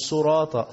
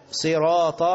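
First: "صراط" opening with su; wrong damma. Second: "صراط" opening with si; sad with kasra. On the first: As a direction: say "صراط" as suraata. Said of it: "مش". («صراط» بضم الصاد خطأً) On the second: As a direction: stretch "صراط" as siraata. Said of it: "مكسورة برضو بالطاء". («صراط» بكسر الصاد) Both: Shown as a demonstration.

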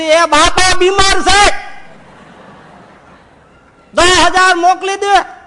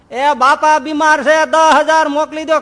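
First: Even higher, very loud, slow strained yell; the loudest yell down the phone; louder shout into phone. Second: Much higher, loud slow yell; yelling over a bad line; shouting into phone. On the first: Acted. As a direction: bellow it word by word. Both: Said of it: "જોરથી બોલ".

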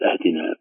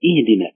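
First: Low, softer أهدنا said "ahdina"; wrong fatha opening. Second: اهدنا opened on i: "ihdina"; correct kasra opening. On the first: Teacher rejecting the error, low ahdina with a first. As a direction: open أهدنا on an a sound. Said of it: "ليست". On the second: Teacher correcting, اهدنا said ihdina. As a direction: start اهدنا with a clear i. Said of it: "بل". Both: Shown as a demonstration.

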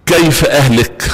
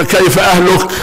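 First: كيف اهلك with the ending made ahluka, wrong case; asking كيف اهلك with the ending bent wrong; caliph's wrong vowel. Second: كيف اهلك with the lam in اهلك said with kasra; اهلك said correctly with kasra on the lam; corrected vowel. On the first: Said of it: "فقال له". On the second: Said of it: "كسر اللام". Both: Retold or imitated.

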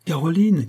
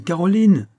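First: High call across the house. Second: High, louder second call; crying out louder. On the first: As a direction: call her name from the hallway. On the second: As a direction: shout her name again, more urgent. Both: Acted. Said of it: "s'écria Hortense".

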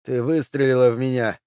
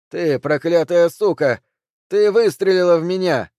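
First: A rasped, strained creak. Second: Yelling in rage. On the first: Shot husband croaks at his wife, creaking. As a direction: scrape the words out, wounded. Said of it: "проскрипел он". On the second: Shot husband screams at his wife, furious. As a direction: hurl the curse at her. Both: A narrator's reading.

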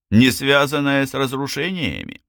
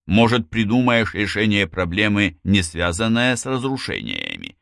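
First: Higher, incredulous repeat; scornful echo. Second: Even, reasonable question; mild suggestion. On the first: Drave snorting at Lazlo's suggestion, incredulous scorn. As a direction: throw the words back in disbelief. Snorting, throws the words back. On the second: Lazlo answering the demolition man, a mild suggestion. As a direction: offer it matter-of-factly, easing off at the end. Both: A narrator's reading.

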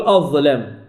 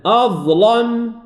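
First: "أظلم" with a clear L and fronted A, like "azlem"; undarkened L in "أظلم"; light, thin lam. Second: "أظلم" with a dark L and back A; slow, heavy lam in "أظلم"; heavy, thickened lam. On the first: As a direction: say "أظلم" low, keeping the L thin. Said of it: "لا أقول أظلم". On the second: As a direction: chant "أظلم" slowly, thickening the L. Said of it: "فهي مفخمة كذلك". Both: Shown as a demonstration.

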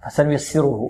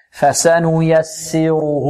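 First: فسنيسره hurried, its short vowels clipped; snatched vowels. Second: فسنيسره very slow, each short vowel completed; full vowels. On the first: Teacher showing students the error to avoid, vowels snatched. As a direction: rush through فسنيسره stealing time from each vowel. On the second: Teacher correcting the snatched version, full unhurried vowels. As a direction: give every vowel of فسنيسره its whole measure. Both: Shown as a demonstration. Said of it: "نحذر من اختلاس الحركات هنا".

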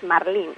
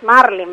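First: "marlín" stressed on the final LÍN; stress on last syllable. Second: "marlin" stressed on MAR, as in English; stress on first syllable. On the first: Expert deriving plural from singular, end-stressed "marlín". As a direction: keep MAR light and land on LÍN in "marlín". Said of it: "la pronunciación correcta es marlín". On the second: Expert showing the widespread pronunciation, front-stressed "marlin". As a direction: hit MAR and let "lin" drop in "marlin". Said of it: "la pronunciación difundida es marlin". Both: Shown as a demonstration.

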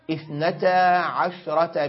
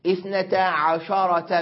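First: اثنتا عشرة with عشرة as ʕashrah, no vowel on the shin; silent shin. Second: اثنتا عشرة with عشرة as ʕasharah, fatha on the shin; the form not to use, shin opened with a; wrong open shin. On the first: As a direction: Hijazi form, shin held silent. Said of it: "بإسكان الشين في لغة الحجازيين". (اثنتا عشرة بإسكان الشين) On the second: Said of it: "بفتح الشين". (اثنتا عشرة بفتح الشين خطأ) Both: Shown as a demonstration.

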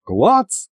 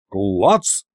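First: High, light questioning clack; shrugging clack. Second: Low-key deadpan clack; helpful offer. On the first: Diesel shrugs and sheathes the blade, high offhand clack. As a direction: toss КЛАЦ up high like a shrug. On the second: Kind Diesel offers his sabre, low deadpan clack. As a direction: offer КЛАЦ low and matter-of-fact. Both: A narrator's reading.

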